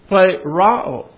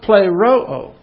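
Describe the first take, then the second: First: The vowel after the r sounds like 'ah'. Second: The vowel after the r sounds like 'oh'. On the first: "So this would be play Rao" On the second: "It's always play Ro-O"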